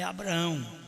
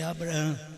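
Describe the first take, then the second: First: The name ends in a nasal 'ão' sound. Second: The name ends in a 'ham' sound. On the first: This is the usual translated form. The speaker calls it wrong. "a nossa tradução é Abraão" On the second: This is the original form. The speaker calls it right. "mas o certo é Abraão"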